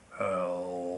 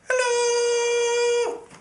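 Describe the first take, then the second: First: It is said in a very low voice. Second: It is said in a very high voice.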